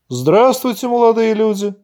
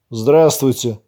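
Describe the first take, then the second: First: Higher-pitched, would-be friendly hello; put-on friendliness in a raised pitch; attempted good-natured greeting. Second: Mildly hostile, drawn-out greeting; understated aggression, slightly drawn out; aggressive drawl. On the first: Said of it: "попытался добродушно улыбнуться". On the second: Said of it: "агрессивно протянул молодой мужчина". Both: A narrator's reading.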